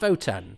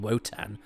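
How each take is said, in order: First: The name begins with a V sound. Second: The name begins with a W sound. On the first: The speaker calls it wrong. "why do they pronounce it Votan?" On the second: The speaker calls it right. "it is with a W"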